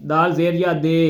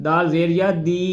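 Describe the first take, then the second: First: دی said as دے with a long ے; wrong pronunciation. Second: دی said with a clear short ی; the right sound: دی, not دے; correct pronunciation. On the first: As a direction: demo the wrong sound: دے in place of دی. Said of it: "یہ آواز نہیں نکالنی ہم نے". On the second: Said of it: "یہ نکالنی". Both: Shown as a demonstration.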